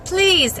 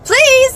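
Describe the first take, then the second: First: It is said softly and sweetly. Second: It is said more loudly.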